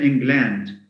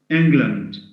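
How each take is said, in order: First: The last syllable has a full 'a' vowel. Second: The last syllable has a reduced schwa vowel. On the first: The speaker calls it wrong. "we don't say England" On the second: The speaker calls it right. "We say Scotland, Ireland, England"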